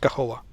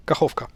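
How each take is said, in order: First: Kahova with the second k dropped; the mistaken Kahova, missing its last K; wrong K-less version. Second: Kachovka with the k sounded before the final a; correct K pronunciation. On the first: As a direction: end Kahova on -ova, no k. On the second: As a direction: finish Kachovka on -vka. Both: Shown as a demonstration. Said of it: "not Kahova".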